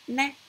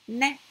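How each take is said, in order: Both takes have the same delivery.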